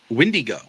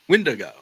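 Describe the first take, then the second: First: It is pronounced differently from its spelling. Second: It is pronounced the way it is spelled. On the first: The speaker calls it right. "it's actually pronounced as Wendigo" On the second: The speaker calls it wrong. "you kind of pronounce it the way you see it"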